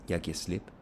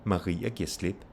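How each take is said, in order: First: Only "slip" stressed, "Jeg giver" left unstressed. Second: "Maria" and "slip" both stressed, "giver" light. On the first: Teacher demonstrating Danish stress, weight only on "slip". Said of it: "you still only have stress on slip". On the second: Teacher contrasting name with pronoun, stress on "Maria" and "slip". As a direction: put weight on "Maria" and on "slip". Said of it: "Now you have stress on Maria". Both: Shown as a demonstration.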